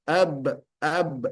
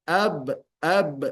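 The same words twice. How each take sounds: Both takes have the same delivery.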